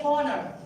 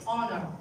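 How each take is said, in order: First: "honor" with a breath of H at the start; "honor" said wrongly as "honner"; sounded H, mistaken. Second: HONOR starting straight on the vowel; "honor" said as "onner"; silent H. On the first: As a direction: pronounce the H in HONOR. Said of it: "We never say honor". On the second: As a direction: leave the H off "honor". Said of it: "It's honor". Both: Shown as a demonstration.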